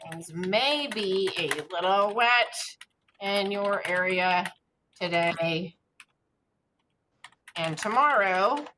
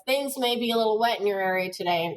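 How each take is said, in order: First: Slow, word-by-word dictation. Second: Quick, easy newscaster read; conversational read. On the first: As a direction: spell it out as you type, slowly. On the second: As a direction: read it like chatting to viewers. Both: Shown as a demonstration. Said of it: "it should sound, you know, kinda conversational".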